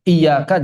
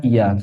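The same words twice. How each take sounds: First: "Iyyaka" with the y doubled; correct tajwid reading. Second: "iya" with a single light y; wrong tajwid reading. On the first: Ustadz warning about misreading, "Iyyaka" with held y. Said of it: "jangan dibaca iya". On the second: Ustadz showing what to avoid, "iya" with single y. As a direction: say "iya" without doubling the y. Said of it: "jangan dibaca". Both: Shown as a demonstration.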